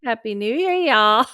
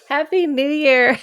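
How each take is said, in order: First: Imitating Southern drawl. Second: Laughing. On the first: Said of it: "Did we hear that?". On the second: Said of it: "laughing repeat of greeting". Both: Shown as a demonstration.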